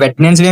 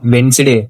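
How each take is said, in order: First: The middle d is pronounced, wed-nes-day. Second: The middle d is silent, wens-day. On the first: The speaker calls it wrong. "మీరు వెడ్నెస్డే అని చదువుతూ ఉంటారు" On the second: The speaker calls it right. "వెడ్నెస్డే కాదు వెన్స్డే"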